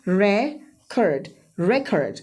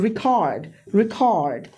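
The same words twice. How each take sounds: First: record as REK-erd, falling; first-syllable stress. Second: record as ri-KAARD; second-syllable stress. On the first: Teacher shows the noun to students, record stressed as REK-erd. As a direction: slowly lean on REK in record, weak second syllable. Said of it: "first syllable पे stress करोगे". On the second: Teacher shows the verb to students, record stressed as ri-KAARD. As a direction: land hard on KAARD in record. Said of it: "second syllable पे stress करेंगे". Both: Shown as a demonstration.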